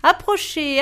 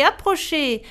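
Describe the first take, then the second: First: Loud rising hawker's call; market call. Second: Repeated market call. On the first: Brothers calling buyers at the market, loud call. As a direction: call out to draw the crowd. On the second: Brothers calling buyers at the market, repeated call. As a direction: keep calling the crowd over. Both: Acted. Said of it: "les sept frères crièrent".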